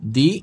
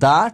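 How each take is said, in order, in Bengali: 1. 'the'-এর স্বরধ্বনিটি দীর্ঘ 'ee'। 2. 'the'-এর স্বরধ্বনিটি হ্রস্ব 'uh'। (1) "দি উচ্চারিত হবে" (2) "দা উচ্চারিত হবে"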